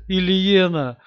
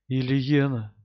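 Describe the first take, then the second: First: Louder, higher, calling her name in despair; anguished cry. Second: Said in the usual way. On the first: Acted. Hero cries wife's name.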